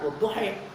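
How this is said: The final vowel is tilted toward 'e'.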